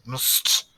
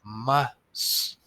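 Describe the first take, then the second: First: "Must" with the vowel dropped, just /mst/; sounded out. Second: "Must" with a clear uh vowel, rising; full vowel. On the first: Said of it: "we're missing the uh sound". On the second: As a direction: say "Must" with the uh sound clearly heard. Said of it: "uh sound". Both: Shown as a demonstration.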